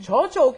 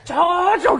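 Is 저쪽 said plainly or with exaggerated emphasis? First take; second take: plainly; exaggerated emphasis. First: It is said plainly, without extra emphasis. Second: It is said with exaggerated, drawn-out emphasis.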